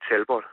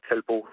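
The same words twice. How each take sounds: First: The name is pronounced in a non-French way. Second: The name is pronounced in the French way.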